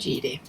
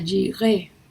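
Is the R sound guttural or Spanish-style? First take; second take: Spanish-style; guttural. First: The R is pronounced the Spanish way. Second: The R is pronounced deep in the throat. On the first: This is how Spanish speakers say it. "aquí en español le decimos Jireh" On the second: This is the original Hebrew pronunciation. "la R en hebreo es muy gutural, como en francés. Diría Jireh"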